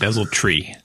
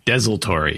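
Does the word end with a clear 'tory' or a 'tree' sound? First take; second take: tree; tory. First: The ending is said as a short 'tree'. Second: The ending is said as a full 'tory'. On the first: The speaker calls it wrong. "It's not desultory" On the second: The speaker calls it right. "There's an O in there"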